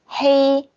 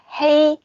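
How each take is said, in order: Both takes have the same delivery.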